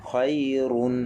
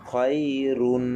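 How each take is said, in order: No difference in how they are said.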